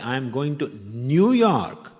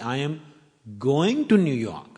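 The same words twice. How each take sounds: First: The words "New York" are stressed. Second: The word "going" is stressed. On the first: The destination is this city, not another. "means I'm not going to Chicago" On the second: The speaker is heading there, not coming back. "I'm not coming from New York"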